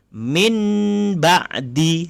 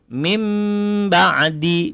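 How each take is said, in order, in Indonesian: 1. Bunyi n yang jelas datang sebelum ba'di. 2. Bunyi m dengan bibir rapat datang sebelum ba'di. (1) "Kalau yang salah itu kita baca min ba'di, salah" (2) "Kalau kita baca betul mim ba'di, bibir rapat"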